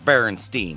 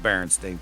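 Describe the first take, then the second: First: The name ends with a 'stein' sound. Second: The name ends with a 'stain' sound. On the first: The speaker calls it right. "they're Berenstein" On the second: The speaker calls it wrong. "not Berenstein"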